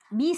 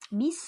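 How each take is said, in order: First: The s sound is dull, not sharp. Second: The s sound is very sharp and hissing. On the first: The speaker calls it wrong. "tidak bis" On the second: The speaker calls it right. "tapi bis. Jadi lancip sekali bunyinya"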